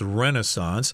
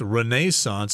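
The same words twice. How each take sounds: First: It is said with a North American pronunciation. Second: It is said with a non-North American pronunciation. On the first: "the North American pronunciation is Renaissance" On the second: "I think I've heard people pronounce this as Renaissance as well"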